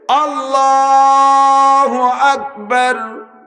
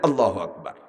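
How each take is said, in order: First: It is said slowly, with the vowels stretched. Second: It is said quickly and clipped short.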